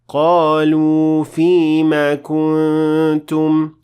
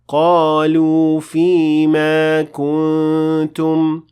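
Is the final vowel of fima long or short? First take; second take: short; long. First: The vowel ending fima is kept short. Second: The vowel ending fima is stretched long. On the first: The speaker calls it right. "it should be" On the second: The speaker calls it wrong. "and not"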